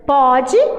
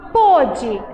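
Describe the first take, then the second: First: The stressed o vowel is open. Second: The stressed o vowel is closed. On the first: It refers to the present. "Perceba que eu li no caso um, pode" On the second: It refers to the past. "e no caso dois, pôde"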